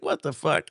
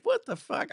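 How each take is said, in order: First: Said in the usual way. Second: Much higher mock squeal of disbelief; a hammed-up high-pitched what the fuck; shocked disbelief. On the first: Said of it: "I was like". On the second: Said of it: "And I was like".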